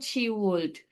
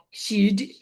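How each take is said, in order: First: It is said as two full separate words. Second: It is said as one short contracted syllable. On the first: The speaker calls it right. "tetap ucapkan panjang" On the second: The speaker calls it wrong. "kalau ucapannya itu jadi ... she'd ... Jangan"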